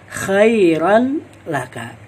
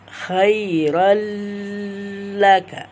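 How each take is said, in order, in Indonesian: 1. Bunyi n diucapkan terpisah sebelum bunyi l. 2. Bunyi n menyatu menjadi bunyi l yang dipanjangkan. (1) "kita memisahkan antara huruf ra dan huruf lam" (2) "dengan memanjangkan bacaan khairal laka"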